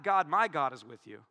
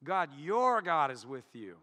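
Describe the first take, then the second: First: God, "my" God, is with you, trailing away; the misread version with "my"; wrong stress on my. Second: The corrected reading, "your" stressed. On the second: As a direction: lean on the word "your". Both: Shown as a demonstration. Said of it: "No, no, no, no".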